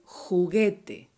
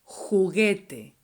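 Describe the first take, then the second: The two takes are said the same way.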